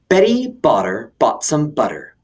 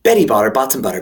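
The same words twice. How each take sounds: First: It is said at a normal speed. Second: It is said fast.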